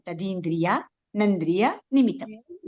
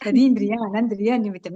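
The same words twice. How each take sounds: First: The phrase is said slowly and calmly. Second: The phrase is rushed together quickly. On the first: The speaker calls it right. "आराम से बोलेंगे" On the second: The speaker calls it wrong. "नहीं"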